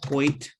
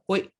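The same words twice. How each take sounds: First: The word ends with a clear T sound. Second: The word ends abruptly in a glottal stop. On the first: The speaker calls it wrong. "we always hear it as Hoyt" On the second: The speaker calls it right. "there's no T at the end. It's just this glottal stop"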